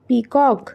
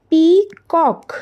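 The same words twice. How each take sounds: First: Said in the usual way. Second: peacock broken in two, "पी... कॉक", each part drawn out; split into syllables. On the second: Shown as a demonstration. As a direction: say peacock slowly as two separate beats, पी then कॉक. (Peacock को दो हिस्सों में तोड़कर धीरे-धीरे) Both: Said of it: "कितने syllable में तोड़ सकते हैं".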